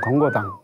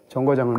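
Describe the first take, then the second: First: The word begins with a d sound. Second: The word begins with a j sound. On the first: This is the northwestern dialect form. "지읒 대신에 디귿이라고 발음해서" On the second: This is the standard pronunciation. "지읒 대신에 디귿이라고 발음해서"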